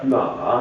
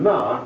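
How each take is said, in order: First: It is said with the third tone. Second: It is said with the fourth tone. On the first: It means horse. "ma means horse" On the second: It is a bit of a swear word. "ma is a bit of a swear word"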